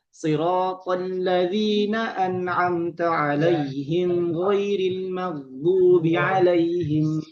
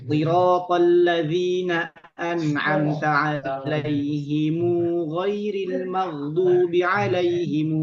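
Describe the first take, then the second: First: The mim of 'alaihim is closed without a vowel. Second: The mim of 'alaihim is followed by a vowel. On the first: This is the speaker's own recitation tradition. "Adapun kita ... Riwayat Hafs an Asim" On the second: This is another recitation tradition. "Itu Ibnu Katsir Al-Makki membacanya dengan silah"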